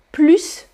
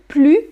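First: PLUS closed on a clear S; PLUS with sounded S. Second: PLUS ending on the French u, no S; PLUS with silent S. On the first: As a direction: say PLUS as "plooss". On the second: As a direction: leave the S off PLUS. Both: Shown as a demonstration. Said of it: "three different pronunciation".

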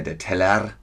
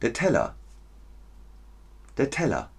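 First: TELLER ending "-err" with a throaty R; old-fashioned Teller, full e and consonant R; sounded R in TELLER. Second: TELLER as "tella", no R; final A in TELLER. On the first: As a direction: overdo the final R of Teller. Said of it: "Ist nicht mehr". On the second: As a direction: end Teller on a short open a. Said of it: "da ist ein A". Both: Shown as a demonstration.

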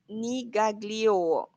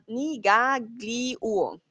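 First: "nigaglio" stretched out very slowly; "nigaglio" muy despacio, sílaba a sílaba; trying Korean. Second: "Nigaglio" as one word, very slowly; "Nigaglio" junto y muy lento; trying it joined. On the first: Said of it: "Laia me dice". ("nigaglio" arrastrado y lento) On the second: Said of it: "lo dices junto". ("Nigaglio" de corrido, lento) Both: Shown as a demonstration.

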